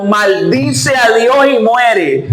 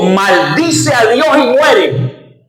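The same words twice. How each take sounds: First: Slow repeat with a laugh in it. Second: Slow, lightly voiced wife spitting out the curse; wife's curse. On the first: Retold or imitated. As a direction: laugh at how absurd the advice is. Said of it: "mira el consejo que le estaba dando". (repitiendo entre risas, despacio) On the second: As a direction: drag it out like a bitter taunt. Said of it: "Y le dijo". (la esposa, lenta y despectiva, apenas imitada)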